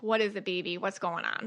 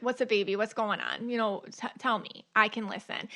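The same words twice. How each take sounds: First: Put-on soft and quieter, coaxing yourself like a hurt child; gentle self-talk. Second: Light, softly coaxing mother voice; mildly tender, as if calming a kid; soothing a child. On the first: Shown as a demonstration. Talking to herself after symptoms flare, gently soothing. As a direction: ease into it, tender and low-key. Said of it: "That's how I talk to myself". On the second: Retold or imitated. Mother comforting her kids, lightly tender. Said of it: "I talk to my kids".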